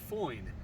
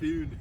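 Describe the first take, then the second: First: The vowel is an 'oi' glide. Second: The vowel is a short 'uh' sound. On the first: This is the usual name for the thrust. "The thrust is called a foin" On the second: This is how the northern sources said it. "but they call it a fun"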